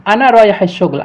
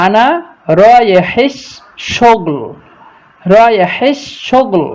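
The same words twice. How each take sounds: First: Said in the usual way. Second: Slow word by word. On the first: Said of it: "তো চেষ্টা করবেন আমার মতো করে উচ্চারণ করতে।". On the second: Shown as a demonstration. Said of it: "আস্তে আস্তে চেষ্টা করতেছি আপনাদের জন্য".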